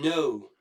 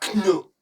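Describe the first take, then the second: First: The word starts with an n sound. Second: The word starts with a k sound. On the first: The speaker calls it right. "Comme quand vous dites I don't know" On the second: The speaker calls it wrong. "Et pas know. Le K ne se prononce pas"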